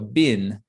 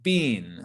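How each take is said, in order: First: The vowel is short, like in bin. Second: The vowel is long, like in bean. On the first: This is the most neutral pronunciation. "maybe the most neutral way to say it, is like a B I N, so a bin" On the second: This is a more British pronunciation. "in the U K, people will often say bean"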